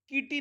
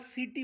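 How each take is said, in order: First: The word starts with a k sound. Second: The word starts with an s sound. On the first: The speaker calls it wrong. "किटी नाही म्हटलं" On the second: The speaker calls it right. "म्हणून याला सिटी म्हटलं आपण"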